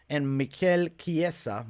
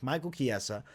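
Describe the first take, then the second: First: "Mikel Chiesa" slowly, "Mikel" as mee-KEL with a falling tune; "Mikel" said mee-KEL, "Chiesa" kee-EH-sa, drawn out; little accent on Mikel. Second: Said in the usual way. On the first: Shown as a demonstration. Fight picks host puts accent on "Mikel", slowly as mee-KEL. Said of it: "I don't know why I gotta put a little accent on him". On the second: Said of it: "put a little accent on him".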